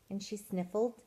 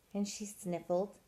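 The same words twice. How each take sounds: The two takes are said the same way.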